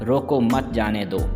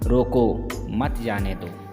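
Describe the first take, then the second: First: The pause comes after the word mat. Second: The pause comes after the word roko. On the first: Do not stop the person; let them go. The speaker calls it wrong. "उन्होंने लिखा था" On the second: Stop the person; do not let them go in. The speaker calls it right. "रोको शब्द के बाद अल्प विराम चिन्ह का प्रयोग करते ही"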